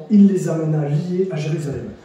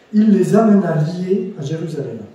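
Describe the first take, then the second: Both takes have the same delivery.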